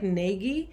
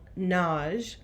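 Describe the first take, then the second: First: The name is said with two syllables. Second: The name is said with one syllable. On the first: This is how the spelling suggests it is read. "It looks like Nagy" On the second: This is the pronunciation the name's owner uses. "I use the Hungarian pronunciation, which is one syllable"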